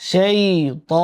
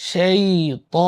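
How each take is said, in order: The two takes are said the same way.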